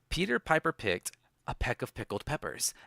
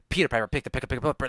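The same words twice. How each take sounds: First: It is spoken at an ordinary, normal speed. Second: It is spoken very fast, in rapid bursts. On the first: "like in a normal voice" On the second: "Faster. Eminem style"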